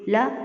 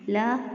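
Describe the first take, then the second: First: The syllable is cut off with an abrupt jerk. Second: The syllable is said smoothly without a jerk. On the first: The speaker calls it wrong. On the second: The speaker calls it right.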